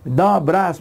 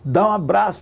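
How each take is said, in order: First: It is said slowly, with the pronoun clearly pronounced. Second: It is said fast, with the pronoun dropped.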